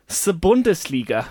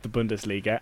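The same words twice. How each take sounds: First: Bundesliga with German u and hard d; the Bundesliga, German accent. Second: Said in the usual way. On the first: Shown as a demonstration. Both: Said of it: "said in a German accent".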